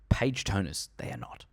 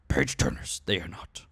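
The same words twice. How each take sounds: First: It is said in the speaker's ordinary voice. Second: It is said in a put-on character voice.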